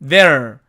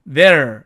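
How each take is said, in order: Both takes have the same delivery.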